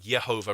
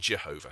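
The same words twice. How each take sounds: First: The word begins with a Y sound. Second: The word begins with a J sound. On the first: The speaker calls it right. "The j sound is a y sound in Latin, like Jehovah" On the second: The speaker calls it wrong. "rather than Jehovah"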